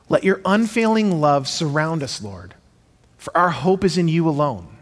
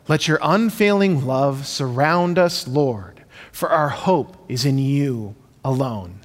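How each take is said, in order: First: It is read like natural everyday talking. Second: It is read in a rhythmic recital cadence.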